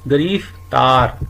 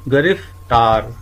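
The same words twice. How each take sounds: First: ਗਰੀਫਤਾਰ said slowly with a full vowel after the g, as gar-ee-ftaar; teacher shows the wrong form ਗਰੀਫਤਾਰ, stretched out slowly; wrong pronunciation demo. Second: ਗ੍ਰਿਫਤਾਰ said slowly with the joined gr cluster, as gri-ftaar; teacher models ਗ੍ਰਿਫਤਾਰ slowly with a tight gr; careful model pronunciation. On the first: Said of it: "ਸਾਡੇ ਕੋਲ ਅਗਲਾ ਸ਼ਬਦ ਹੈ". (ਗਰੀਫਤਾਰ ਹੌਲੀ ਹੌਲੀ, ਗ ਤੋਂ ਬਾਅਦ ਪੂਰੀ ਲਗ ਨਾਲ) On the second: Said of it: "ਦੂਜਾ ਹੈ". (ਗ੍ਰਿਫਤਾਰ ਹੌਲੀ ਹੌਲੀ, ਗ੍ਰ ਜੋੜ ਕੇ) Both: Shown as a demonstration.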